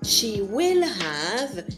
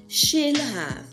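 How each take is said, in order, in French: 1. Will se prononce en entier, comme un mot séparé. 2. Will est raccourci et collé à she.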